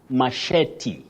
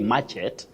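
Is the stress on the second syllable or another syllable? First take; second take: second; another. First: The stress falls on the second syllable. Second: The stress falls on another syllable. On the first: The speaker calls it right. "you say machete" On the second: The speaker calls it wrong. "You don't say machete"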